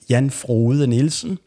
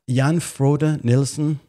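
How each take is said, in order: First: The name is said with Danish pronunciation. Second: The name is said with English pronunciation. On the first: The speaker calls it right. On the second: The speaker calls it wrong.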